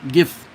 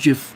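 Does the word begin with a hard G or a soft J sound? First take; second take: hard G; soft J. First: It begins with a hard G sound. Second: It begins with a soft J sound. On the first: The speaker calls it right. "I do the G the G sound" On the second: The speaker calls it wrong. "not GIF"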